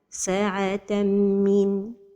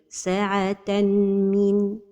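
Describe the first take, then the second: First: The nasal merge is clipped with no hold. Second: A separate n sound is pronounced before the m. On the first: "without a time for the ghunna" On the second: "pronounce the noon of tanween"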